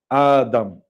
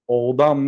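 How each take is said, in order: First: The name starts with a long a sound. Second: The name starts with an o sound. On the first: The speaker calls it right. "адам хонда мешавад" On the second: The speaker calls it wrong. "о хонда намешавад, одам не асташ"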